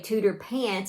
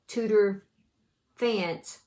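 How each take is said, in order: First: The second word begins with a p sound. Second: The second word begins with an f sound. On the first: "the H be silent" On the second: "with all the letters"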